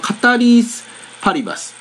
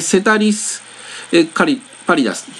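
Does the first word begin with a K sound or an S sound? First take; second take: K sound; S sound. First: The first word begins with a K sound. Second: The first word begins with an S sound. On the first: This is the Latin reading. "最初のC はラテン語ではK の発音らしいですので" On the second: This is the English reading. "英語英語読みで"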